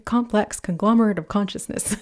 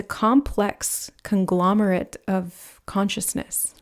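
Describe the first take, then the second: First: Quicker, amused run at a tongue twister; tripping playfully through a mouthful of words. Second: Slow, measured, word by word; slow, deliberate phrasing. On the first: Pretend. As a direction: rattle it off lightly, breaking into a chuckle. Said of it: "Say that three times fast". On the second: Real, not acted. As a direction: spell out the idea slowly, with small gaps. First take of a tongue twister.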